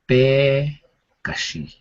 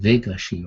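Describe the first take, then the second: First: The word begins with a B sound. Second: The word begins with a V sound. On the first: This is the Navajo form of the word. "we put the B sound there. So our word for cow is Bekashi" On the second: This is how the Spanish speakers said it. "instead of a V, instead of saying Vegashi or whatever, however they say it in Spanish"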